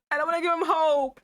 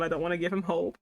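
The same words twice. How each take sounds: First: Higher, louder, insistent; emphatic declaration. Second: Said in the usual way. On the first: Real, not acted. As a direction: declare it firmly, half laughing. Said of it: "repeated louder, higher". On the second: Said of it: "repeated as a joke".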